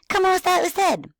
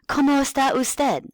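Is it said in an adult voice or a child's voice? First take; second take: child's; adult. First: It is said in an enthusiastic child's voice. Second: It is said in an adult teacher's voice.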